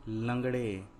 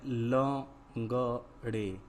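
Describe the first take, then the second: First: Said in the usual way. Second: लंगड़े split into slow separate syllables; लंगड़े drawn out, every syllable held apart. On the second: Shown as a demonstration. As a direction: sound out लंगड़े piece by piece. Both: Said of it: "क्या है".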